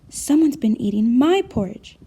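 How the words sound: A medium-sized, middle-pitched voice. "in her medium-sized voice"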